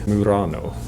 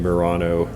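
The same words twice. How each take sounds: First: The word is said with an Italian accent. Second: The word is said with an American accent.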